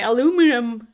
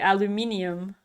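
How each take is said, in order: First: It is said the American way. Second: It is said the Dutch way. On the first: The speaker calls it wrong. "It's like a kid trying to read it and then they say aluminum" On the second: The speaker calls it right. "In Dutch, we say aluminium"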